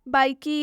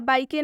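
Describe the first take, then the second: First: The word ends with an added ee sound. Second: The word ends with an added ay sound. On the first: "हम इसका उच्चारण बाइकी या बाइके नहीं कर रहे हैं" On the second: "हम इसका उच्चारण बाइकी या बाइके नहीं कर रहे हैं"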